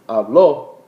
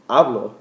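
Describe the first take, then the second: First: Habló with the stress on the last syllable ó; contrast: habló stressed at the end; stress on final ó. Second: Hablo with the stress on the first syllable ha; contrast: hablo stressed at the start. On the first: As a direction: land hard on the ó of habló. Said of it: "When you say habló, you're saying he or she spoke". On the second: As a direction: lean on HA in hablo, the last o unstressed. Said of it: "If you're saying hablo, I speak". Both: Shown as a demonstration.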